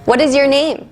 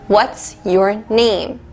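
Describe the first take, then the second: First: What and is are said as two full words. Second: What and is are joined into what's.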